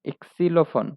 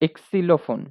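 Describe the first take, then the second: The two takes are said the same way.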